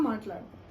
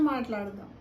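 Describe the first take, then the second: The two takes are said the same way.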